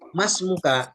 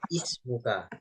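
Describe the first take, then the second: First: The opening 'i' vowel is dropped and linked. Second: The opening 'i' vowel is clearly pronounced. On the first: The word follows another word. "ini kan tidak dibaca hamzahnya" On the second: The word begins the utterance. "Ini kan kita baca ismuka"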